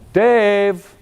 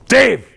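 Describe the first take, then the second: First: The name is called in a friendly tone. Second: The name is called in an angry tone. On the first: Everything is fine. "I got no problem with that" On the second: Someone is in trouble for something. "something's broke, okay? I did something"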